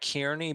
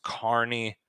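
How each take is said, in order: First: The name is said as it is spelled. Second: The name is said the local way. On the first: "It's spelled like Kearney" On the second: "I think it's actually pronounced Kearney"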